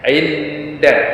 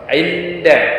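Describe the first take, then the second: First: The n becomes only a nasal hum. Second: The n is pronounced clearly and fully. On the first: "hanya dibaca dengan dengung saja ... Ini kurang tepat" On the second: "nunnya dibaca jelas"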